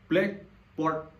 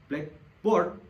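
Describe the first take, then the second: First: The stress falls on black. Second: The stress falls on board. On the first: It means a board for writing on. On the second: "jika kata boardnya itu yang ditekan"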